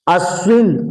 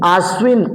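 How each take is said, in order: First: अश्विन with a short opening a; अश्विन, short first vowel; short a, wrong form. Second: आश्विन with a long drawn aa at the start; आश्विन, long first vowel; long aa, correct form. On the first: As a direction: say अश्विन starting on a clipped short a. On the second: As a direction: stretch the opening aa in आश्विन. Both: Shown as a demonstration. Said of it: "आश्विन कुवार को कहा जाता है".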